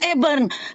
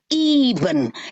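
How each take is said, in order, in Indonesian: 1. Vokal pertama diucapkan sebagai 'e'. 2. Vokal pertama diucapkan sebagai 'i'. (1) "lu baca Eben. Katrok lu" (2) "Baca Iben"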